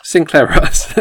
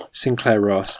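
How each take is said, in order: First: "Sinclair Ross." loud and high with a firm falling end; confident answer. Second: "Sinclair Ross?" tried out as a doubtful guess; tentative question. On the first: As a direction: land on "Sinclair Ross." triumphantly. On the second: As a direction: offer "Sinclair Ross?" hesitantly. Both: Real, not acted.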